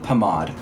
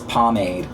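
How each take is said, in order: First: It is said with a French pronunciation. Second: It is said with an American pronunciation. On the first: The speaker calls it right. "In France, it is pronounced pomade" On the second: The speaker calls it wrong. "all y'all American is pomade. Y'all sound f***ing dumb"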